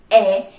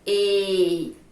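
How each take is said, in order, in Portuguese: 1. A vogal tem som aberto. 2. A vogal tem som fechado. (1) "ela pode representar o som aberto" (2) "ela pode representar o som também fechado"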